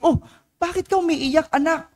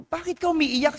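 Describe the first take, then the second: First: High, concerned motherly voice; a mother startled to find her child crying, high and concerned; worried mother. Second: High, softer concerned mother's question; a mother gently asking her child why he cries, high and hushed; worried mother. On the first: Priest voicing a worried mother asking her crying child, high pitched. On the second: Priest repeating the mother's question to her crying son, high and soft. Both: Retold or imitated.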